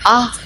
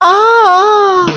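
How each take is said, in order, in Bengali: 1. এটি সাধারণ, নিরপেক্ষ ভাবে উচ্চারিত। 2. এটি খুব রোমান্টিক ভাবে উচ্চারিত। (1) "সরেয়া সাধারণ উচ্চারণ" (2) "আর একটু রোমান্টিক হলে"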